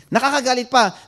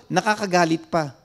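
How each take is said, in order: First: "Nakakagalit pa" repeated louder and higher, pressing on "pa"; emphatic repeat. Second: Said in the usual way. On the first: Real, not acted. Pastor to congregation, stressing how angering it is, emphatic. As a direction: punch the repeat of "Nakakagalit pa" with a fall on "pa".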